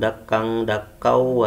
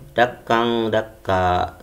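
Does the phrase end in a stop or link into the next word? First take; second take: link; stop. First: The ending merges into the following word. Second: The phrase stops on a long final vowel. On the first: The recitation continues into the next verse. "kalau disambung" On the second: The recitation pauses at the end of the verse. "Kalau di waqaf"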